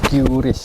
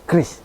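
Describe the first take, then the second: First: It starts with the English letter name 'kyu'. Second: It starts with a plain 'kr' cluster. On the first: It follows the English reading of the letter. The speaker calls it wrong. "di Inggris lafalannya Q. Jadi Qris" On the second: It follows Indonesian pronunciation. The speaker calls it right. "Jadi cukup kita melafalkannya dengan Kris"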